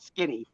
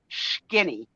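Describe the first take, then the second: First: It is said in a plain accent. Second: It is said with an Italian accent. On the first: "not Skinny" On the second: "my mother, with her Italian accent, called her Skinny"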